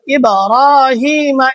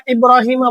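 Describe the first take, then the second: First: ইব্রাহিমা with a bouncing, echoing b; ইব্রাহিমা, b released with an echo; qalqala pronunciation. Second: ইব্রাহিমা with a flat b and no bounce; ইব্রাহিমা, flat b, the mistake; wrong pronunciation. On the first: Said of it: "কলকলা হরফ যেহেতু". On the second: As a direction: say ইব্রাহিমা with a dead, unreleased b. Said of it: "বললে ভুল হয়ে যাবে". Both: Shown as a demonstration.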